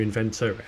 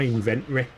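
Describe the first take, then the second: First: "inventory" with the T clearly sounded; pronounced T. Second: "inventory" with the T left out; dropped T. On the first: Shown as a demonstration. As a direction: say every syllable of "inventory", T included. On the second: Real, not acted. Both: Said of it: "There's a T in there somewhere".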